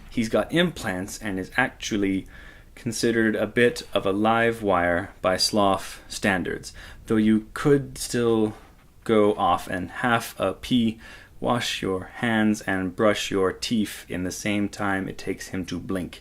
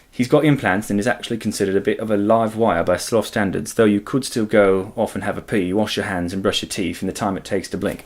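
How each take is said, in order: First: It is read in the speaker's own American accent. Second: It is read in a put-on British accent.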